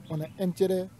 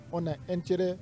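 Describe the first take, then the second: No difference in how they are said.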